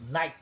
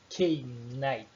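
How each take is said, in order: First: The word starts without any k sound. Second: The word starts with an audible k sound. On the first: The speaker calls it right. "eu falei night" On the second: The speaker calls it wrong. "eu não falei K-night"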